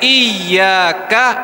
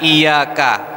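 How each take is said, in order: First: The 'y' sound is doubled and held longer. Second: The 'y' sound is single and short. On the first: The speaker calls it right. "harusnya iyyaka" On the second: The speaker calls it wrong. "dibaca tanpa tasydid. Tidak boleh"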